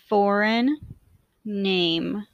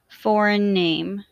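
First: The words are said with a break between them. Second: The words are joined smoothly with no break. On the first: "I will say the words with a space in between" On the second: "in a more fluid way to demonstrate linking"

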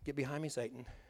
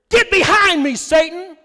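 First: It is said mildly, without force. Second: It is said forcefully, with indignation.

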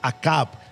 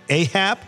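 First: The name is said with Spanish pronunciation. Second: The name is said with English pronunciation. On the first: "But in Spanish, it's Acab" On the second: "The pronunciation in English is different"

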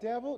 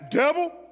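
First: It is said weakly, like a hesitant question. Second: It is shouted loudly in a deep voice. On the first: The speaker is unsure and afraid. The speaker calls it wrong. "Some of y'all are like" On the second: The enemy is confronted boldly. The speaker calls it right. "put that bass in your voice"

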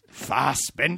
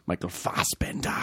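First: It is said louder and more intensely. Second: It is said at a normal, quieter volume.

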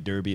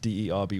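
First: The word is said with an American pronunciation. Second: The word is said with a British pronunciation. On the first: The speaker calls it wrong. "Americans would say Derby" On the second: The speaker calls it right. "It's Derby"

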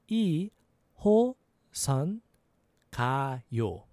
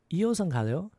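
First: It is said slowly. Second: It is said fast.

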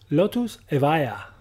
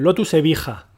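First: It is said with an English pronunciation. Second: It is said with a Spanish pronunciation.

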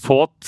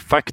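First: The word is said with the vowel of 'fought'. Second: The word is said with the vowel of 'fact'. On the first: The speaker calls it right. "han klarte ikke å si fought" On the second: The speaker calls it wrong. "så han sa fact"

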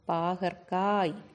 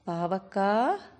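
First: The middle has a k and r cluster. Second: The middle has a v sound. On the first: The speaker calls it right. "இதை இப்படித்தான் சொல்லணும்" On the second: The speaker calls it wrong. "பேச்சு வழக்கில் நம்ம என்ன சொல்லக்கூடாது"

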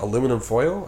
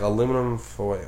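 First: It ends with a rising, questioning tune. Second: It is drawn out and ends without rising.

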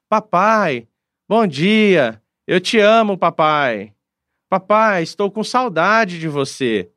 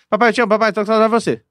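First: It is said at a normal, unhurried speed. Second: It is said very fast, as if sped up.

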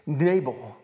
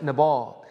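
First: The name is said the Southern way. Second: The name is said the non-Southern way. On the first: This is how people in the South say it. "That's how they say it in the South" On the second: This is how the speaker's own community says it. "We would actually pronounce it Nabal"

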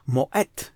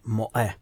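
First: The final T sound is clearly pronounced. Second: The final T sound is left silent. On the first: This follows the name's Danish origin. The speaker calls it right. "wymówi je właśnie z literką T na końcu" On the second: This follows French spelling habits. The speaker calls it wrong. "nie Moe z francuska"

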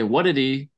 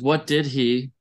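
First: The words are run together fast into one. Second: Each word is said separately and carefully. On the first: "you say it fast and it becomes a new word" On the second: "They don't usually say it like that"

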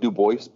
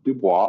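First: The name is pronounced the way its spelling suggests. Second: The name is pronounced the speaker's own way. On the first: The speaker calls it wrong. "Looks like Du Bois, but I don't say Du Bois" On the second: The speaker calls it right. "But [name]"

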